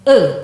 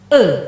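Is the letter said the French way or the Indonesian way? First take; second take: French; French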